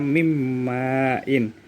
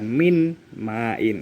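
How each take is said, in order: First: The n merges into the following m sound. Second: The n is kept separate before the m. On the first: The speaker calls it right. "dibaca mimmain" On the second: The speaker calls it wrong. "bukan min main, itu salah"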